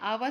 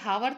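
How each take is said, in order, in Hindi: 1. यह शब्द एक स्वर ध्वनि से शुरू होता है। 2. यह शब्द एक उच्चारित h ध्वनि से शुरू होता है। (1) "आवर ही पढ़ते हैं" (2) "इसको पढ़ते नहीं है"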